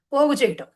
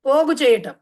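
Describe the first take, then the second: First: Said in the usual way. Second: పోగు చేయటం said again louder, with weight on పోగు; emphatic repeat. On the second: Shown as a demonstration. Teacher repeating the meaning to students, louder and emphatic.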